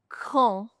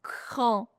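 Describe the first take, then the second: No difference in how they are said.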